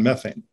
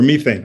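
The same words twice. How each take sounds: First: The word has an American pronunciation. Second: The word has a British pronunciation.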